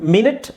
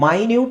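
First: It begins with a short 'min' sound. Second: It begins with a long 'my' sound. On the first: It means sixty seconds. "ಮಿನಿಟ್ ಅಂತ ಹೇಳಿದಾಗ ಮಾತ್ರ ಅದು ನಿಮಿಷ" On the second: It means extremely small. "ಅದೇ ಪದನ ನಾವು ಮೈನ್ಯೂಟ್ ಅಂತಲೂ ಹೇಳ್ತೀವಿ"

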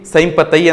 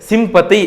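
First: The first vowel is an 'ai' sound. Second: The first vowel is a short 'i' sound. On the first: The speaker calls it wrong. "ಸೈಂಪತೈ ಅಂತ ಕರೆಯಲ್ಲ ನಾವು" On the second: The speaker calls it right. "ಸಿಂಪತೈ ಅಂತ ಕರಿತೀವಿ"

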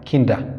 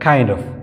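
First: The word 'of' is reduced to a short 'a'. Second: The word 'of' is said in full.

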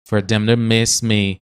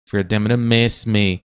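Both takes have the same delivery.

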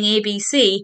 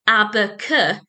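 First: Each letter is said by its full letter name. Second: Each letter is said as its short phonic sound. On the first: This is the form used in the alphabet song. "then you try and get them to sing ABC" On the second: This is the form used for sounding out words. "if you teach the children ABC"

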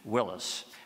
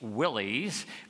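First: The name ends like the surname Willis. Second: The name is said following its spelling. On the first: This is how the founder's name was originally said. "I prefer the original pronunciation" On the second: This is the common modern way people say it. "people call Jeeps Willys because of how the name is spelled"

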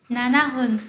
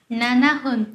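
The two takes are said the same way.

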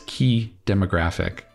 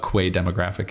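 First: The first word sounds exactly like key. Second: The first word does not sound like key. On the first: The speaker calls it right. "it's pronounced key, like a lock and key" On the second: The speaker calls it wrong. "I was not pronouncing this word correctly"

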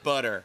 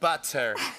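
First: The middle consonant sounds like a D. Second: The middle consonant is a clear T sound. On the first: The speaker calls it wrong. "not D's" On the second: The speaker calls it right. "The T's are T's"

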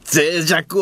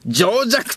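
First: The word begins with the syllable zei. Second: The word begins with the syllable jo. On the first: The speaker calls it right. "脆弱を" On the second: The speaker calls it wrong. "情弱と読み"

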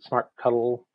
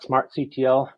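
First: The ending is said as the word cuddle. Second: The ending is spelled out letter by letter. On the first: "some pronounce it smart cuddle" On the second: "some spell it out"

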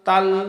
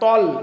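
First: The t sound is plain and light. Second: The t sound is emphatic and heavy. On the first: The speaker calls it wrong. "অনেকেই পাঠ করি ইহদিনাস সিরা তাল" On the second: The speaker calls it right. "তর উচ্চারণ আমরা তার মতো করে করব না"

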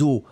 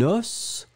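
First: The final s is silent. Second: The final s is sounded. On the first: It means several bones. "On pourrait imaginer que c'est les os, le pluriel de l'eau" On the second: It means one bone. "un os"

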